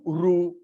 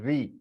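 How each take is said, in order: First: The syllable is said with a u sound. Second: The syllable is said with an i sound. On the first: The speaker calls it right. "So ru ru" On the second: The speaker calls it wrong. "they are pronouncing it uh, ri"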